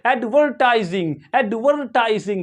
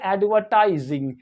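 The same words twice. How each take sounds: First: एडवर्टाइजिंग with the R pronounced; American pronunciation. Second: एडवर्टाइजिंग with a silent R; British pronunciation. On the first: Teacher shows American English, R sounded. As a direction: curl a clear R before the T in एडवर्टाइजिंग. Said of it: "इस आर को क्या करेंगे? प्रोनाउंस करेंगे". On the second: Teacher shows students British English, R-less pronunciation. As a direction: say एडवर्टाइजिंग British-style, no R before the T. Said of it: "British English में इसे पढ़ेंगे". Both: Shown as a demonstration.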